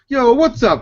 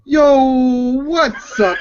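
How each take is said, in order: First: It is said fast. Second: It is said slowly.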